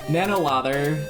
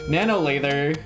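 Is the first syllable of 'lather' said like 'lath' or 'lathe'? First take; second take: lath; lathe. First: The first vowel is short, as in soap lather. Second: The first vowel is long, as in lathe. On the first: The speaker calls it wrong. "I thought it was lather like soap" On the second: The speaker calls it right. "it's lathe like lathe"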